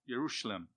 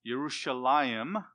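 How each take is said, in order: First: The name ends with a short 'im' sound. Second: The name ends with a two-vowel 'ayim' sound. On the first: This is the Aramaic form of the name. "Yerushalim is the Aramaic pronunciation" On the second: This is the Hebrew form of the name. "which we were very familiar because that's Hebrew"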